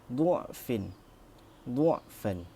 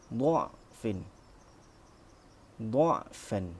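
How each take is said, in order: First: The first vowel is a 'u' sound. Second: The first vowel is an 'a' sound. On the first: "membacanya dengan dhammah" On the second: "membacanya dengan fathah"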